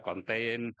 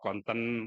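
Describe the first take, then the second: First: First "konten" with a gliding "tein" ending; first variant pronunciation. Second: "konten" with a short schwa, "kon-tən"; second variant pronunciation. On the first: Speaker recalling a lecturer's corrections, "konten" pronounced "kon-tein". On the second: Speaker recalling a lecturer's corrections, "konten" pronounced "kon-tən". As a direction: say "konten" slowly, reducing the last vowel. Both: Shown as a demonstration. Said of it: "disalahin pokoknya sedikit salah".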